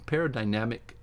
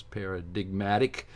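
First: Paradigmatic misread as "paradynamic"; misread word. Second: Paradigmatic said correctly, para-dig-MA-tic; careful, correct paradigmatic; corrected word. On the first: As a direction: stumble on paradigmatic, saying "paradynamic". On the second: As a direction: get paradigmatic right, with the "dig" sounded. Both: Real, not acted. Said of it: "no, that's not what it says".

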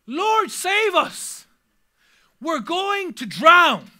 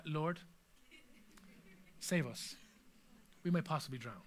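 First: High, loud, slow desperate plea; panicked disciples begging for rescue; panicked cry. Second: Much lower and softer, deadpan; a calm, understated plea; calm mock reading. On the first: Retold or imitated. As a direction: cry out as if the boat is sinking. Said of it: "This is the voice of panic". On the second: Shown as a demonstration. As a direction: read it like nothing is wrong. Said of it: "you can't really read that in a calm way".

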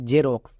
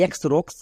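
First: জেরক্স said slowly with a "j" start, "je-roks"; slow model of জেরক্স; teacher correcting to জেরক্স; correct pronunciation. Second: এক্সরক্স said slowly as "eks-roks"; slow demo of the mistake এক্সরক্স; wrong pronunciation. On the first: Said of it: "উচ্চারণ হবে জেরক্স". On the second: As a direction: mimic learners saying এক্সরক্স. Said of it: "এরকমভাবে উচ্চারণ করছো". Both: Shown as a demonstration.

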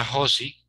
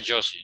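First: "Josie" said as "HO-see"; throaty H sound opening "Josie"; Spanish J. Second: "Josie" said with a hard English-style J; foreign-name J. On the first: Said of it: "En español no sería Josie". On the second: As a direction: start "Josie" with a "dj" sound. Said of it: "Entonces deci". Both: Shown as a demonstration.

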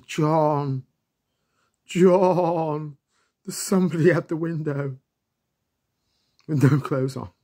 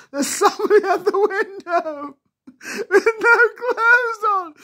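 First: Raised, higher call of John through the window. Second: Very high, loud screaming, half crying with laughter. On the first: Kids calling John about someone at the window, raised call. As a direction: call his name, half spooked. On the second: Kids all screaming to John about the naked man, shrieking. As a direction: shriek it, laughing and scared at once. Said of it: "And we're all screaming". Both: Retold or imitated.

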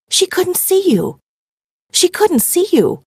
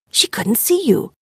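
First: Higher and slower, mounting shock; rising disbelief. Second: Breathless unvoiced whisper of realization; shocked whisper. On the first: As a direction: let the realization grow louder. Realization repeated, building. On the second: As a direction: whisper it as the truth sinks in. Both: A narrator's reading.

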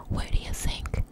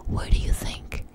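The two takes are said the same way.

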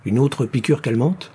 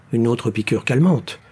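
First: "Une autre piqûre calmante" rising at the end; questioning rise. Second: "Une autre piqûre calmante" falling at the end; decided statement. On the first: Rescuer suggesting another injection, questioning rise on "calmante". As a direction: ask it tentatively, lifting "calmante". Rescuer asks, other confirms. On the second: Rescuer agreeing to another injection, falling tone on "calmante". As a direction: confirm it firmly, dropping on "calmante". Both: A narrator's reading.

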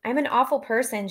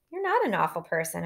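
First: Higher, mildly tearful self-blame; lightly voiced upset, pitched up. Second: Soft. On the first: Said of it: "hit by another round of crying". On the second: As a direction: gently contradict her, with "not" lifted. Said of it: "I say softly". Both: A narrator's reading.

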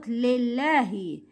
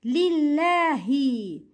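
First: Lillahi begun as "leh"; incomplete kasra. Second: Lillahi slowly, starting with a pure "lee"; full kasra. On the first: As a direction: open the first vowel of lillahi to eh. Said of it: "not lillahi". (lillahi said like lellahi) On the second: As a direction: complete the first i of Lillahi. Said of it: "It's li". (Lillahi with a clear ee in li) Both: Shown as a demonstration.

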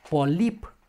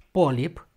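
First: Polip stressed on i, high and rising. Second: Polip with louder stressed o. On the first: Teacher demonstrates the first word's accent, Polip stressed at the end. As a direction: say 'po-LIP' for Polip. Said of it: "cu accent pe I". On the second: Teacher shows the other word, polip stressed first. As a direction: say 'PO-lip' for polip. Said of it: "pe O". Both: Shown as a demonstration.

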